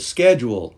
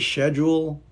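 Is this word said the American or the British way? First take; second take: American; British. First: It is said with an American pronunciation. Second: It is said with a British pronunciation. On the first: "that's how I say schedule" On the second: "over in Britain maybe they say schedule"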